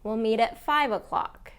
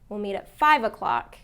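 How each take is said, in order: First: It is said lightly, without forceful emphasis. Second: It is said with heavy, forceful emphasis. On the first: The speaker calls it right. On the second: The speaker calls it wrong.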